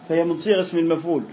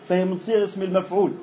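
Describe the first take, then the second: The two takes are said the same way.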